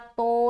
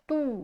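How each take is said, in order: First: The vowel sounds like a long 'o'. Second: The vowel sounds like a long 'oo'. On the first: The speaker calls it wrong. "नहीं बोलेंगे" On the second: The speaker calls it right. "तू को मारूफ रखेंगे"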